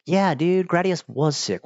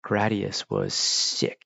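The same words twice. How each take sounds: First: Higher-pitched, eager echo; real fanboy enthusiasm; enthusiastic agreement. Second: Said in the usual way. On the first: Real, not acted. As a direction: agree excitedly, like a fellow fan. Enthusiastic agreement with repeated remark.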